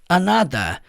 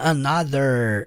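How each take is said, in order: First: The final R sound is dropped. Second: The final R sound is clearly pronounced. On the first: "ele puxa mais pro another" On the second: "igual o sotaque americano"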